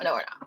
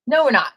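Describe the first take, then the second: First: Low, soft and fading away. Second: Loud firm no. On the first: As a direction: let it die down to a murmur. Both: Acted. Repeated fading refusal.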